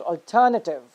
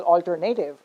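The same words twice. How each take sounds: First: "alternative" as al-TER-nuh-tiv; correct stress. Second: "alternative" as al-ter-NAY-tiv; wrong stress. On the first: Teacher correcting students, "alternative" stressed on TER. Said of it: "it's pronounced as". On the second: Teacher showing students the mistake, "alternative" mispronounced as al-ter-NAY-tiv. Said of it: "is not pronounced as". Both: Shown as a demonstration.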